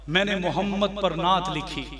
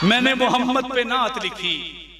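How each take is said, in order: First: It is said in a quieter, ordinary voice. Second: It is said in a loud, raised voice. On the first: The speaker calls it wrong. "ऐसे नहीं" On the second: The speaker calls it right. "बुलंद आवाज से"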